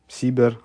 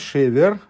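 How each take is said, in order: First: The word begins with an s sound. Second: The word begins with an sh sound. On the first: The word means hope. "а как «син»" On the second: The word means grain or a break. "не как «шин»"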